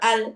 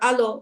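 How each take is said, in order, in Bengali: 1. শেষ ব্যঞ্জনটি কোনো প্রতিধ্বনি স্বরধ্বনি ছাড়াই পরিষ্কারভাবে থামে। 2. শেষ ব্যঞ্জনটি একটি প্রতিধ্বনি স্বরধ্বনি দিয়ে ঝাঁকানো হয়। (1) "এরকম বলতে হবে।" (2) "এরকম বলে। এরকম বলা যাবে না।"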